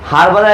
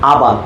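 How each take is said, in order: First: It starts with an h sound, British style. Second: It starts without an h sound, American style. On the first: "এটা British sound." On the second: "American sound হচ্ছে এটা কি?"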